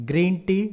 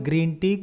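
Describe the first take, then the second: The two takes are said the same way.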